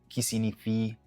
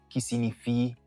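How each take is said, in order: No difference in how they are said.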